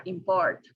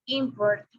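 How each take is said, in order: First: "import" stressed on PORT; stress on second syllable. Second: "import" stressed on IM; stress on first syllable. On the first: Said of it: "or in the second". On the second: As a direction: say "import" as IM-port. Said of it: "whether the stress is on the first". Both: Shown as a demonstration.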